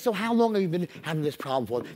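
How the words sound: It is said warmly, with empathy.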